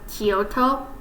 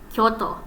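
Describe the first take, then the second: First: The 'kyo' is split into two syllables. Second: The 'kyo' is said as one syllable. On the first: The speaker calls it wrong. "some people in America call like call it Kyoto" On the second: The speaker calls it right. "in actuality it's ... it's one syllable"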